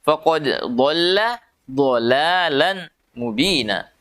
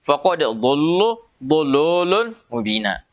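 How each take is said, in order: First: The l is thin, with clear vowels. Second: The l is thick, darkening the vowels. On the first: The speaker calls it right. "Harus tipis" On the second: The speaker calls it wrong. "Tidak boleh kita baca"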